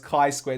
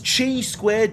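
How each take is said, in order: First: Chi starts with a k sound, like Kai. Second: Chi starts with a ch sound, as spelled. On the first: The speaker calls it right. "it's pronounced Kai" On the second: The speaker calls it wrong. "he just completely fucked up the pronunciation"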